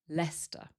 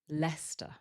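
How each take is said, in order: Both takes have the same delivery.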